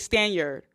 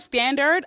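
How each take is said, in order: First: The word sounds like 'stand yard'. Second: The word sounds like 'standard'. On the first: The speaker calls it wrong. "I always say stand yard" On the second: The speaker calls it right. "Instead of standard"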